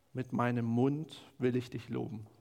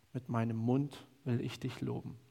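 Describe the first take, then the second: No difference in how they are said.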